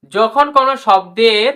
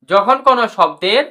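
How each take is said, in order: Both takes have the same delivery.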